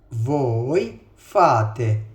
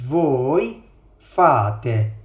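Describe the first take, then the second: No difference in how they are said.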